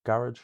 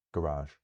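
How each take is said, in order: First: "garage" stressed on the first syllable, high and loud. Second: "garage" stressed on the second syllable; light first syllable, long weighted end on "garage". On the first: Teacher showing stress difference, "garage" with first-syllable stress. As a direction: punch the start of "garage", let the end drop away. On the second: Teacher contrasting English words, "garage" with second-syllable stress. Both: Shown as a demonstration. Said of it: "difference between the English words".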